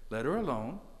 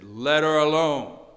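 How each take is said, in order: First: It is said in a mild, plain tone. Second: It is said in a forceful, defending tone. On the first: A plain request to stop. The speaker calls it wrong. "I think he didn't just say" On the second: Someone is being firmly defended. The speaker calls it right. "I think he said, ... He defended her"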